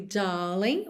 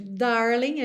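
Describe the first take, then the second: First: "darling" with long open A, no R; British "daaling"; British accent. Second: "darling" with a curled American R; American accent. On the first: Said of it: "a gente ouve darling". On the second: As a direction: rhotic "darling". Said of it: "ao invés de darling". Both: Shown as a demonstration.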